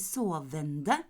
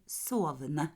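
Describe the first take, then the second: First: The ending -ende is pronounced in full. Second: The ending -ende is reduced, not fully pronounced. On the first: The speaker calls it wrong. "Jeg sier ikke sovende" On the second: The speaker calls it right. "jeg sier sovende"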